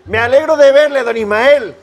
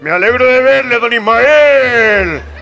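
First: It is said in a normal speaking pitch. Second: It is said in a deep, low voice. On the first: The speaker calls it wrong. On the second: The speaker calls it right.

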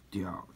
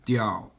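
First: The pitch dips low, then rises. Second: The pitch stays high and level.

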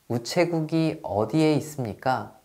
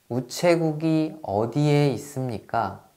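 First: It is said fast. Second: It is said at a normal pace.

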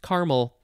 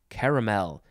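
First: The middle vowel is dropped, giving two syllables. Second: The middle vowel is pronounced, giving three syllables. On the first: This is the common way. "most people say caramel" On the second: The spelled middle letter is honored. "she feels strongly because there is that extra A in there"

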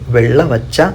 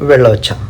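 First: The word is said in full, all syllables. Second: The word is said quickly in a shortened form. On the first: "నేను వెళ్ളവച്ച എന്നാണ്" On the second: "കുറച്ച് സ്പീഡിൽ പറയുമ്പോൾ వెళ్ళొచ్చా എന്ന് പറയും"

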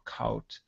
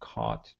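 First: The vowel sounds like 'ow'. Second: The vowel sounds like 'ah'. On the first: The speaker calls it wrong. "sometimes I hear people say thout or kout" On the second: The speaker calls it right. "It still has this ah sound"

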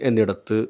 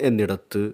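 Both takes have the same delivery.

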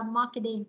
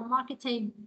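First: It is said with an American accent. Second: It is said with a British accent. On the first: "còn anh Mỹ sẽ là marketing" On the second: "giọng anh sẽ là marketing"

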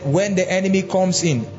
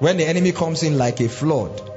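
First: It is said with a pause after 'comes in'. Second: It is said with no pause after 'comes in'. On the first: The Spirit rises like a flood against the enemy. The speaker calls it right. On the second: The enemy is the flood. The speaker calls it wrong. "I used to think that the enemy was the flood"

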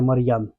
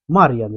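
First: The stress is on the second syllable. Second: The stress is on the first syllable. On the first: The speaker calls it wrong. "а не" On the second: The speaker calls it right. "вимовляйте моє ім'я з наголосом на перший склад"

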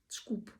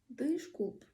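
First: It is said fast with nearly all vowels dropped. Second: It is said carefully with its vowels pronounced.

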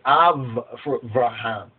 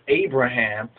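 First: The middle consonant is a V sound. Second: The middle consonant is a B sound. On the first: "they say Avraham" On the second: "they do the same thing with Abraham"

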